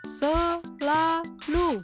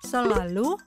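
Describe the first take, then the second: First: The word is read at a slower pace. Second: The word is read at a faster pace.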